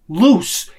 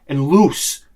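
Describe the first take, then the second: First: "Loose" higher and louder, rising; stressed loose. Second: Said in the usual way. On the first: Shown as a demonstration. Explaining flat burger patties, "Loose" stressed and rising. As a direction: lean on "Loose" with a lift.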